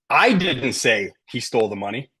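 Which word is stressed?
I. The stress falls on the word I. Someone else said it, not me. "Maybe he stole the money, but somebody else said it, not me"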